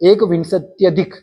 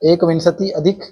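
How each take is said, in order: First: The words merge, with the i becoming ya. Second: The words are said separately, without merging.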